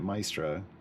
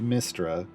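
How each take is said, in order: First: The first syllable has a long 'eye' vowel. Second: The first syllable has a short 'i' vowel. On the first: This is how it was said from reading books. "I always grew up pronouncing it" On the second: This is the official pronunciation. "canonically it's pronounced"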